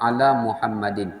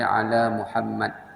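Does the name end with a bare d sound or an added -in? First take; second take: added -in; bare d. First: The name ends with an added -in sound. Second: The name ends on a bare d sound. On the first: The reader continues without stopping. "kalau tak wakaf" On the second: The reader stops at this word. "Kalau wakaf"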